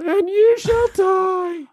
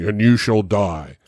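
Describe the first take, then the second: First: It is said in a squeaky, high-pitched voice. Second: It is said in a normal, menacing voice.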